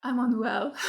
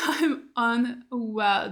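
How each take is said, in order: First: Said in the usual way. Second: Slow, laughing through the words. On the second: Real, not acted. A fan repeating her line to the camera, laughing. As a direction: let the laugh carry a drawn-out repeat.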